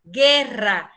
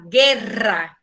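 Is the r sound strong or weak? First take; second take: strong; strong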